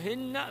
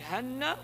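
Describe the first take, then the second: First: The first vowel is an 'i' sound. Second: The first vowel is an 'a' sound. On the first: "هن بالكسر" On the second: "هن بالفتح"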